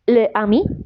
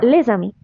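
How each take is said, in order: First: The words are said separately without a Z sound. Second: The words are joined with a Z sound. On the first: The speaker calls it wrong. "on ne dit pas" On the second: The speaker calls it right. "on dit"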